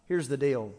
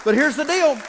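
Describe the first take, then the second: First: Said in the usual way. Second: Here's the deal shouted much higher and louder; loud hype. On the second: Real, not acted. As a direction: fire up the room with a big call. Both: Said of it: "Bump your neighbor and say".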